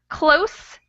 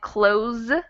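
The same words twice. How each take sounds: First: The word ends with a hissing s sound. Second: The word ends with a buzzing z sound. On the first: It means near. "the end is different, but it's the consonant that changes" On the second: It means to shut something.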